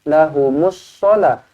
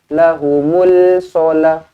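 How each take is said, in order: First: The l merges into a doubled s sound. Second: A clear l sound comes before the s. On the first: The speaker calls it right. "alif lam syamsiah di sini nampak sabdu masukkan terus" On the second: The speaker calls it wrong.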